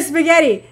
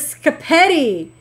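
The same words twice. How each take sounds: First: Said in the usual way. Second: "scapetti" as skuh-PETTY, with sk at the start; child's mispronunciation. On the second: Retold or imitated. Streamer quoting a kid's word for spaghetti, "scapetti" mispronounced skuh-PETTY. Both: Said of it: "instead of spaghetti".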